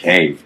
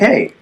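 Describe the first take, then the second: First: It is said in a deep, bassy voice. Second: It is said in a light, upbeat voice. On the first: The caller sounds older and more forceful. The speaker calls it right. "if I like put some more bass in my voice" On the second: The caller sounds younger. The speaker calls it wrong. "I'm more upbeat"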